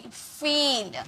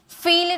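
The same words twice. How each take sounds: First: "फील" very slow, ee stretched long. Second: "फील" with a short, unstretched vowel; wrong short vowel. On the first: Teacher correcting students with "फील", long drawn-out vowel. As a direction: hold the ee in "फील", softly drawn out. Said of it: "थोड़ा लंबा में sound आएगा". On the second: Teacher showing how not to say "फील", too short. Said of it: "फील नहीं". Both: Shown as a demonstration.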